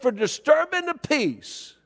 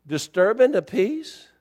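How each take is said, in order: First: "disturbing the peace" slow and higher, falling at the end; officer's stated charge. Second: "disturbing the peace" slow, rising at the end as a question; questioning echo. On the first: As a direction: pronounce "disturbing the peace" as a firm verdict. Retold officer gives the charge. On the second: Echoes the charge as question. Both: Retold or imitated.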